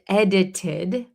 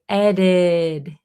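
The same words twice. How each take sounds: First: The middle consonant is a clear T sound. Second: The middle consonant is a quick D-like flap. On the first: "we don't pronounce it edited usually when we talk fast" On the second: "this T in the middle becomes a flap T"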